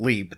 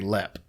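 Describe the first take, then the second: First: The vowel is a long 'ee' sound. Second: The vowel is a short 'e' sound. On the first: This is how most outsiders say it. The speaker calls it wrong. "in Ireland they don't leap" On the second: This is how locals in Ireland say it. The speaker calls it right. "they lep. So it's lep"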